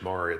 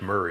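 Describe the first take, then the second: First: The first vowel sounds like in 'more'. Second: The first vowel sounds like in 'hurry'. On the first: The speaker calls it right. "It's Maury, though" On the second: The speaker calls it wrong. "I think I introduced you as Murray"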